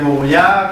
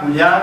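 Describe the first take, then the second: First: The name is said in its fullest, longest form. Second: The name is said in its shortest, most compressed form. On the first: "cada vez lo hace más corto" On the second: "cada vez lo hace más corto"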